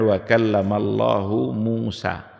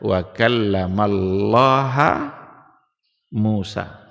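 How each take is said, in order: First: Allah ends with an 'u' vowel. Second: Allah ends with an 'a' vowel. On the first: God is the one who speaks to Moses. "Allah sebagai fa'il" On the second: Moses is the one who speaks to God. "Allah menjadi maf'ul"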